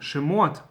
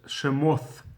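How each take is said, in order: First: The word ends with a t sound. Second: The word ends with a th sound.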